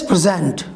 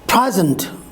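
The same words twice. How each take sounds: First: The stress is on the second syllable. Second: The stress is on the first syllable. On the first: It is used as a verb. "with the verb, the stress falls on the second syllable" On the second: It is used as a noun. "the noun has its word stress on a first syllable"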